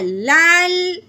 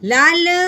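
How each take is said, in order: First: The final L is held still without a vowel. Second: The final L is moved with an added vowel. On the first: The speaker calls it right. "बल्कि कैसे पढ़ना है?" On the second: The speaker calls it wrong. "ऐसे नहीं करना"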